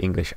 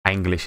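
First: Said in the usual way. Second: "Anglish" with an initial A as in "apple"; own pronunciation. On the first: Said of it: "instead of English". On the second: Shown as a demonstration. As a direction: open the first vowel of "Anglish". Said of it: "I say".

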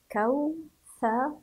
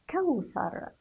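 First: كوثر split slowly into kaw, tha, ru; syllable-by-syllable reading. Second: Said in the usual way. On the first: Shown as a demonstration. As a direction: sound out كوثر in higher, separate syllables. (تهجئة كوثر مقطعًا مقطعًا) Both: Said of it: "هيا بنا لنقرأ".

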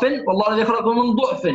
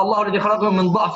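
First: ضعف with a damma, duʕf; damma reading. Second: ضعف with a fatha, daʕf; fatha reading. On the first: Teacher showing Hafs's second reading, ضعف with a damma. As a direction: read ضعف as duʕf with a rounded u. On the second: Teacher showing Hafs's first reading, ضعف with a fatha. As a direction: read ضعف as daʕf with an open a. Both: Shown as a demonstration. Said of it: "بالفتح والضم".

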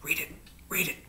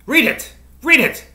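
First: Whispered, very soft urging; murmured. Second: High, loud, short outburst; exclaimed command. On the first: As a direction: murmur it under your breath in a whisper. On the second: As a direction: urge it sharply, pitched way up. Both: A narrator's reading. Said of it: "she murmured".

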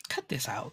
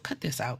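First: "Cut this out" whispered, unvoiced and much softer. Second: Said in the usual way. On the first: To the schemers in the story, soft unvoiced whisper. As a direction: hiss "Cut this out" under your breath.

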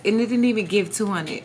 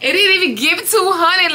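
First: Low, soft chuckling admission; rueful laugh. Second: Higher, laughing disbelief on two; incredulous laughing repeat. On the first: Dancer quietly laughing at her low take. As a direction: laugh it off quietly under your breath. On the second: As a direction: repeat it with a laugh, not believing it. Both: Real, not acted. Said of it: "that is so freaking sad".

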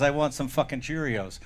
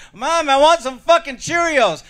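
First: Said in the usual way. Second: Put-on high, drawn-out child's demand; demanding bratty kid. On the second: Kid defying his mother at breakfast, loudly insistent. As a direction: stretch it out slowly, pitched way up.

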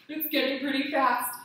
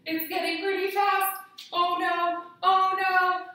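First: Louder, a touch urgent; the wind picks up, rising worry; mild playful urgency; growing alarm. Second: Higher and louder, hammed-up alarm; kids' yoga teacher hamming up a storm; playful alarm. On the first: Pretend. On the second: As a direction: act scared the wind will knock you down. Wind storm again, playful alarm.

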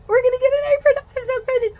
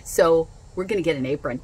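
First: Much higher, louder squeal; squealing excitement. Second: Said in the usual way. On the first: Real, not acted. Telling viewers about the free apron, squealing with excitement. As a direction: squeal with delight over the apron.

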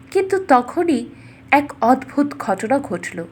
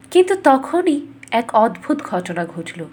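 No difference in how they are said.

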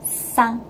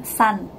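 First: Sang ending in a back ng, slowly; sang, the tongue staying back. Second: San ending on a tongue-forward n; san with the tongue pressed forward; wrong reading. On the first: Teacher modelling the correct sang, slowly. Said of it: "tapi bacaannya sang". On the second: Teacher showing the wrong n ending, tongue forward. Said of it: "bukan san". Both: Shown as a demonstration.

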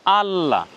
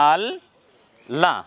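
First: আল্লাহ with the ল held double and joined in one word; teacher models the joined word; doubled lam. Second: আল and লা said as two separate syllables with a pause between; split syllables. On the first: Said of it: "উচ্চারণ কেমন হবে?". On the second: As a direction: break আল লা into two clear beats. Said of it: "এই double উচ্চারণ যদি আমরা ভেঙ্গে দেখি". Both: Shown as a demonstration.

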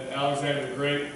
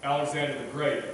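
No difference in how they are said.

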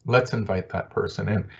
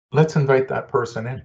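First: A soft afterthought echo; quieter echo. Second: Raised pitch, firm and clear; bright emphatic proposal; emphatic first take. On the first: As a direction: let it land gently the second time. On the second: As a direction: put it forward as an invitation. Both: Shown as a demonstration. Repeats the suggestion for emphasis.

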